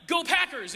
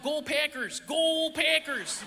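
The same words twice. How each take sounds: First: Said in the usual way. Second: Drawn-out Wisconsin "Go Packers" chant; Wisconsin accent. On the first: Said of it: "and it wasn't like". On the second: Retold or imitated. Wisconsin fans cheering on their team, thick Wisconsin accent. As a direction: stretch the vowels like a Wisconsin fan. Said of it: "It was like".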